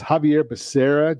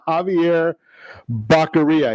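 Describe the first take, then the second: First: The surname has an s sound in the middle. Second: The surname has a k sound in the middle. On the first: This is the correct pronunciation of the name. The speaker calls it right. "it's Javier Becerra" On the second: This is how the name was mispronounced by someone else. The speaker calls it wrong. "they didn't get the pronunciation or the phonetics into the teleprompter"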